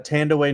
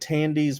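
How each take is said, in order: First: The name is said with three syllables. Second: The name is said with two syllables. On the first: This is how she says her name now. The speaker calls it right. "she pronounces it uh Tandy Way Newton" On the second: This is the older form of the name. The speaker calls it wrong. "she used to pronounce it that way"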